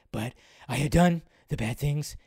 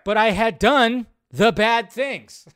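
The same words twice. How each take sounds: First: Low hushed raspy confession; Joss Whedon impression. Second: "But I had done the bad things" loud, slow, higher, punching "done"; emphatic repeat. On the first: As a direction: mumble the admission low and raspy. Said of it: "that Joss Whedon impression". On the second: Shown as a demonstration. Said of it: "Right there".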